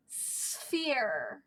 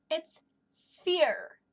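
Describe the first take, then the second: First: "Sphere" said deliberately, S then F clear; sounding out sphere. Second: Said in the usual way. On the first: Shown as a demonstration. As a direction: sound out "Sphere" slowly for kids. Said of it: "and then an F sound". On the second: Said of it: "Do you hear that? There's an S sound".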